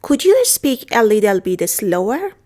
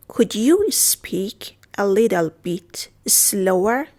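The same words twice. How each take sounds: First: Said in the usual way. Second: Very slow, pausing between word groups; drawn-out teacher's demonstration; slow model repeat. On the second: Shown as a demonstration. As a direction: stretch it out for beginners to follow. Teacher repeats phrase slowly.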